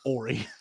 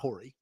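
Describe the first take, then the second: First: The word begins with a vowel, no H. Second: The word begins with an audible H sound. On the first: The speaker calls it right. "The H is silent" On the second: The speaker calls it wrong. "Not Hori"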